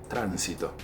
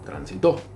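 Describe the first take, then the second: First: The stress is on the first syllable. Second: The stress is on the last syllable. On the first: "las esdrújulas son las que se acentúan en la antepenúltima" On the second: "Las agudas son las que se acentúan al final"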